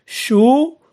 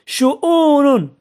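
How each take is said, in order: First: Syllable by syllable. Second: Said in the usual way. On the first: Shown as a demonstration. Teacher sounding out an example word for pupils, شؤون syllable by syllable.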